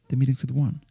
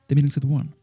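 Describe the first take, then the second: First: Meeting and is merge into a contraction. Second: Meeting and is merge into a contraction.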